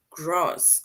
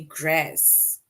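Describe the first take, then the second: First: "grass" with a broad ah, as grahs; slow "grass" with a long open ah; local pronunciation of grass. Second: "grass" with a short a as in cat; slow "grass" rhyming with mass; alternative pronunciation of grass. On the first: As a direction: say "grass" with the vowel of father. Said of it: "they say it rhymes with grass". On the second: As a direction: say "grass" with the front a of trap. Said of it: "or let's say grass". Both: Shown as a demonstration.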